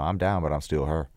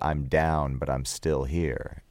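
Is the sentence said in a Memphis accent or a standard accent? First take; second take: Memphis; standard. First: It is said loosely and mumbled, in a Memphis accent. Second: It is said in a plain, standard accent.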